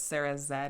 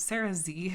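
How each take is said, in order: First: The final letter is pronounced 'zed'. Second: The final letter is pronounced 'zee'. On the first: This is how the person herself says it. "she's Canadian, so it's Sarah Zed is how she refers to it" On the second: This is the American way of saying it. "if you're like American English"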